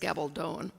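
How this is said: The name is said English-style with a long final O. "the most common, if we're English speakers, is Gabaldon. It still has a long O in the last"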